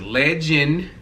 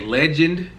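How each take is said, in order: First: It ends without a final D sound. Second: It ends with a clear final D sound. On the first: This is how the child's name is said. "with no D" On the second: This is the ordinary word. "with a D"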